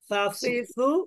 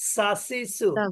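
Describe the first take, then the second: First: The tongue tip touches the upper teeth tips. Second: The tongue tip touches the lower teeth roots. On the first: "এটা হলো জিহ্বার আগা উপরের দাঁতের আগা" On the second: "আর এটা হলো জিহ্বার আগা নিচের দাঁতের গোড়া"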